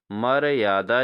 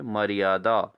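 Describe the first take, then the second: First: मर्यादा broken as "mara-yaada"; wrong pronunciation. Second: मर्यादा run together as "mariyaada"; correct pronunciation. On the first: Teacher shows students the error, मर्यादा split "mar-yaada". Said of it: "नहीं होता". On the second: Teacher gives students the right form, मर्यादा as "mariyaada". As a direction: glide through मर्यादा, "ma-ri-yaa-daa". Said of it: "सही स्वरूप है". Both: Shown as a demonstration.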